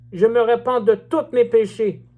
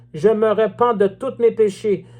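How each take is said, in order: No difference in how they are said.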